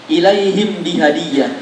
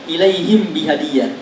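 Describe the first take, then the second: Both takes have the same delivery.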